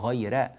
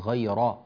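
First: The r sound is light and thin. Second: The r sound is heavy and full-mouthed. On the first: The speaker calls it right. "رقق الراء" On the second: The speaker calls it wrong. "أنت لم ترقق الراء، قلت غير"

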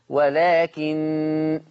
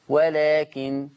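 First: The final n is held with a nasal hum. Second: The final n is short with no nasal hum. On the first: "حفص لما يقف على النون هتبقى بغنة لأن عنده النون مشددة" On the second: "هتبقى النون مخففة بس ما فيش غنة"

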